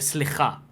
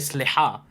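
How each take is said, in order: First: The middle consonant is a raspy ch. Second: The middle consonant is a deep throat h. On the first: The speaker calls it wrong. "the Ashkenazi accent doesn't have the het. It has they say chet instead" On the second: The speaker calls it right. "the correct way of pronouncing it with the right letter is het"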